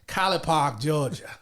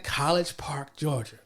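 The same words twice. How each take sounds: First: It is said in a Southern US accent. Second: It is said in a neutral accent.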